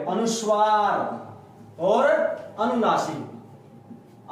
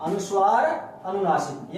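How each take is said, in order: First: अनुस्वार और अनुनासिक stretched very slowly, sounded through the nose; slow nasal teaching demo. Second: Said in the usual way. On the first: Shown as a demonstration. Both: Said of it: "ये नाक तक बोले जाएंगे".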